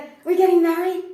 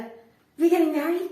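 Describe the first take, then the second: First: Much higher and much louder; near-shouted question. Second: Higher and louder; pushy question. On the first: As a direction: yell the demand at full pitch. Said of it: "And he'd be like". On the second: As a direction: press the question harder. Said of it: "he'd be like". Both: Retold or imitated.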